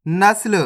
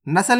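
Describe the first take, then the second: First: नस्ल as "nasl"; correct half-letter reading. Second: नस्ल opened up as "na-sal"; wrong full-letter reading. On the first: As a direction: run s straight into l in नस्ल. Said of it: "नस्ल नहीं पढ़ना". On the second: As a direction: put a vowel after s in नस्ल. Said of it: "नहीं पढ़ना". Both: Shown as a demonstration.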